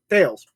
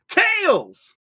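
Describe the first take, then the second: First: It is said in a plain, normal voice. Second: It is said in a Sonic cartoon voice.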